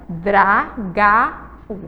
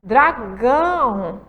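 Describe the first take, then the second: First: "dragau" said slowly with no nasal sound; "dragau" slow and oral, no nasal resonance. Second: "Dragão" drawn out slowly with a nasal "ão". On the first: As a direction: say "dragau" through the mouth only, nose silent. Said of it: "vamos ler as duas palavrinhas". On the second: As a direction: let "Dragão" ring in the nose, very slow. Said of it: "falar a palavrinha dragão". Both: Shown as a demonstration.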